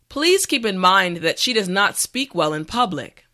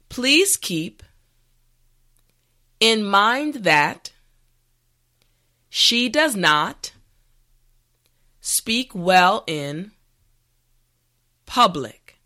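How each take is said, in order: First: The sentence is said at a natural pace. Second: The sentence is said slowly and carefully. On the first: "the last time at a regular pace" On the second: "this time repeat after me"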